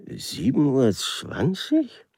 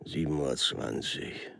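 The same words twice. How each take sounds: First: Slow, higher "Sieben Uhr zwanzig?" with a clear rise at the end; ungläubig fragend, steigend; puzzled question. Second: Low, soft, falling murmur on "Sieben Uhr zwanzig"; nachdenklich, leise fallend; musing repeat. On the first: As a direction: ask "Sieben Uhr zwanzig?" back in doubt, lifting the last word. Official repeats it as question. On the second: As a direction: say "Sieben Uhr zwanzig" quietly to yourself, dropping at the end. Official repeats the time, musing. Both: Acted.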